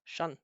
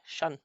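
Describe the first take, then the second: Both takes have the same delivery.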